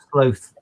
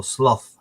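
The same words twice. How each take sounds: First: "sloth" with a long o, rhyming with "both"; long-o pronunciation. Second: "sloth" with a short o, rhyming with "moth"; short-o pronunciation. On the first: Streamer unsure how to pronounce the animal, long o in "sloth". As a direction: say "sloth" as "slowth". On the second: Streamer offering the other pronunciation, short o in "sloth". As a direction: say "sloth" as "sloff". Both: Shown as a demonstration. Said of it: "however you wanna pronounce that thing".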